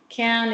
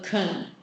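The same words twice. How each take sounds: First: The word is said clearly with a full vowel. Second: The word is said weakly with a reduced vowel.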